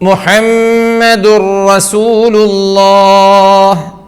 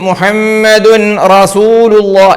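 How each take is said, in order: First: The n merges into a doubled r sound. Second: The n sound is pronounced before the r. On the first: The speaker calls it right. "അതിനുശേഷം റാ വന്നപ്പോഴോ മുഹമ്മദുർ റസൂലുള്ളാഹ്" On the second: The speaker calls it wrong. "എഴുതിയതുപോലെ വായിക്കുകയാണെങ്കിൽ ... ദുൻ റ പറ്റൂല"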